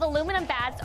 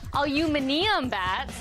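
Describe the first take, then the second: First: The word is said in an American way. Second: The word is said in a British way.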